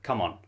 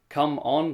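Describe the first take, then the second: First: The word 'come' is reduced to 'ka'. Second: The word 'come' is said in full. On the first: "So that come just becomes like ka" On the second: "When we say like"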